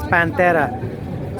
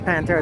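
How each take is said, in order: First: The word is said with Spanish sounds. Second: The word is said with English sounds. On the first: The speaker calls it right. "they can pronounce it properly" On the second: The speaker calls it wrong. "We're all pronouncing it wrong"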